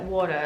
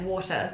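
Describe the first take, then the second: First: The T sounds soft, almost like a D. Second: The T sounds crisp and clearly released. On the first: This is how the other person says it. "It's like a, almost a D. It's like water. Like it's very soft" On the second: This is how the speaker's own group says it. "Whereas we're like water"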